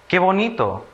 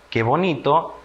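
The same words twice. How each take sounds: First: "Qué bonito" high, as an exclamation; exclamation of emotion. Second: Said in the usual way. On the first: Shown as a demonstration. Teacher showing children an exclamation, admiring and high-pitched. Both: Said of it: "expresa emoción".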